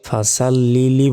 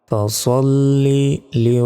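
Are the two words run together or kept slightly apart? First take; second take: run together; apart. First: The two words run together without a break. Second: The two words are kept slightly apart. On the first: The speaker calls it wrong. "ফাসাল্লিলি বলি, লিলি নয়" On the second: The speaker calls it right. "শব্দগুলো একটু আলাদাভাবে বলার চেষ্টা করতে হবে"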